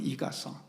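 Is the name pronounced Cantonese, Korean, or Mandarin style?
Korean. The name is said with Korean pronunciation. "우리식으로 발음하면"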